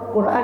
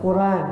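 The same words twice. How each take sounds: First: A glottal stop separates the two syllables. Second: The syllables run together without a glottal stop. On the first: This is the form used in other dialects. "Quran dengan hamzah" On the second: This is the form of the Quraysh dialect. "Ada logat Quraisy tanpa ham, hamzah"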